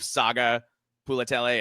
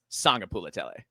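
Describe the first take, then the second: First: It has no n sound before the g. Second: It has a faint n sound before the g. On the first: The speaker calls it wrong. "instead of" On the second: The speaker calls it right. "you're supposed to just barely say it"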